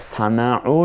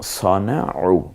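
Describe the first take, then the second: First: The first vowel is a thin, open a. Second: The first vowel is a dark, o-like sound. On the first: The speaker calls it wrong. "সানাউ না পড়ে" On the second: The speaker calls it right. "আমরা স সনাউ পড়ব"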